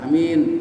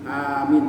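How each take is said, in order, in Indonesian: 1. Vokalnya dibaca pendek. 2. Vokalnya dibaca panjang. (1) "Bukan bukan amin" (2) "a-nya panjang, min-nya panjang itu"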